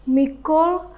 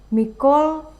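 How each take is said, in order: The two takes are said the same way.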